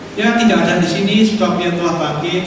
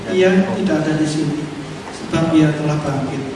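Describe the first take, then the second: First: It is read in a plain, ordinary tone. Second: It is read in a sad, mournful tone. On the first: The speaker is simply stating a fact. "Gaya orang biasa gimana?" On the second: The speaker is grieving. "Ini gayanya orang sedih"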